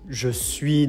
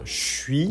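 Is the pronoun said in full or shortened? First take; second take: full; shortened. First: The pronoun is said in full. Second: The pronoun is shortened into the verb.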